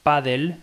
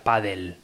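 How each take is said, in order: First: "paddle" read as written, "pa-dle"; paddle as spelt. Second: "paddle" said "padel", E before L; paddle as pronounced. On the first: Explaining spelling, "paddle" read as written. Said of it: "se escribe paddle". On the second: Explaining pronunciation, "paddle" said "padel". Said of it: "invertir la E y la L". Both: Shown as a demonstration.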